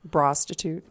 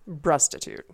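First: The first syllable sounds like 'bra'. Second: The first syllable sounds like 'bruh'. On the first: "No, bra. Like bra" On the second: "There you go. That's better"

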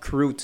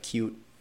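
First: An r sound follows the first consonant. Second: No r sound follows the first consonant. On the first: This is how it was said as a young child. The speaker calls it wrong. "I used to say crute" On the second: This is the standard way to say it. The speaker calls it right. "instead of cute"

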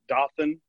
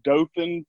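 First: The name is said the way outsiders say it. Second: The name is said the way locals say it. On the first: This marks the speaker as an out-of-towner. The speaker calls it wrong. "For most people who aren't from here, they call it Dothan" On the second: This is the correct local name. The speaker calls it right. "That's Dothan"

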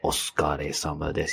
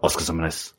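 First: It is said slowly and carefully. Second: It is said quickly, mumbled together.

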